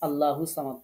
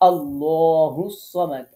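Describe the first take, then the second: First: The L in Allah is light and thin. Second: The L in Allah is heavy and full. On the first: The speaker calls it wrong. "আল্লাহু সামাদ পড়বো না" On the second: The speaker calls it right. "আল্লাহ ল পড়তে হবে"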